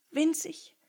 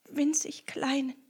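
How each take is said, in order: First: "winzig" said higher, lightly stretched; emphasis. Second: "winzig" repeated in a breathless whisper. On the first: The sad rat stresses "winzig" higher. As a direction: lean on "winzig" first time. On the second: The sad rat whispers "winzig kleinen", fading out. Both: Acted.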